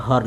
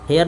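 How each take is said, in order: First: हर said short, like the Hindi word har; हर as the right sound of hear; correct reading of hear. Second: हेयर said like hair, the long wrong vowel; हेयर with the wrong vowel, as a warning; wrong reading of hear. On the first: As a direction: say हर short and clipped, not haiyar. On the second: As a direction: say हेयर as the mistaken hair sound. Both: Shown as a demonstration. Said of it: "हेयर नहीं लिखा है, हर लिखा है".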